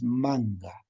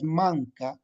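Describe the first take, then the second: First: "manga" with a voiced ng-g sound, not k; spoken pronunciation. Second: "manca" read as written, with a hard k sound; written spelling. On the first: Teacher gives the real Quechua pronunciation: "manga" with g. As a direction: soften the k of the spelling into "manga". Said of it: "pero la pronunciación es manga". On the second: Teacher reads the Quechua spelling aloud: "manca" with a clear k. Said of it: "La escritura es manca". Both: Shown as a demonstration.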